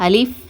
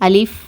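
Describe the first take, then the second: Both takes have the same delivery.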